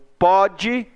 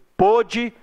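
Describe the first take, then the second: First: The first vowel is an open o. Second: The first vowel is a closed o. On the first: It happens now, in the present. "você pronuncia com som aberto" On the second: It happened in the past. "você pronuncia com som fechado"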